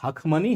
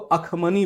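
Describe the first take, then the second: First: The word begins with an h sound. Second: The word begins with a vowel, no h. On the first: "ह शब्द तो हम लोग डाल देते हैं" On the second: "ए से ही शुरू हो जाता है"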